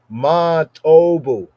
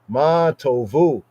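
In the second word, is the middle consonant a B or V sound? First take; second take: B; V. First: The second word has a B sound in the middle. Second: The second word has a V sound in the middle. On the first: This is how it was said in ancient times. "In ancient Pawnee" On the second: This is how it is said today. "the modern pronunciation of Ma Tovu"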